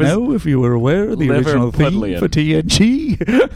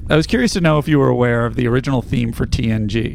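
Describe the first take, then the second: First: It is read in an attempted Liverpool accent. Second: It is read in the reader's ordinary accent. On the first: "I was just trying to do thing. ... It was Liverpool" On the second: "Please read in your normal voice"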